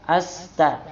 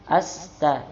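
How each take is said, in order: No difference in how they are said.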